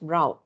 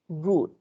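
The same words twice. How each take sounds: First: It is said with a US pronunciation. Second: It is said with a UK pronunciation. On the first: "U S is pronounced as route" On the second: "U K route"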